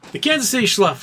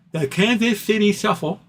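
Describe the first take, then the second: First: Schluff- stumbled, the sh sound slurred into a cut-off schluff; tongue-tied slip. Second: Shuffle said clearly as shuff-ul, with a laugh behind it; corrected with a laugh. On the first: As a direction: trip over Schluff- mid-word. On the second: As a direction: fix Shuffle with a chuckle. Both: Real, not acted.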